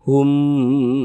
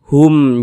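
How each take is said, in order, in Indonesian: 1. Kata ini ditahan panjang dan memanjang. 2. Kata ini diucapkan pendek dan tegas. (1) "jangan dipanjangkan gitu" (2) "baca pendek begitu"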